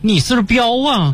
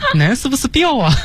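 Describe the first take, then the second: First: It is said in a Huludao accent. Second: It is said in a Dalian accent. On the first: "同样是葫芦岛说这句话的时候" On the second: "就是这个口音"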